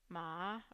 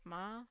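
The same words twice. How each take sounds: First: The pitch dips to the bottom, then returns mid. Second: The pitch rises from low-mid to high-mid. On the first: "you start mid, then you drop to the bottom of the pitch range, and then you um, come back up to mid" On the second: "it's rising from this half low to half high"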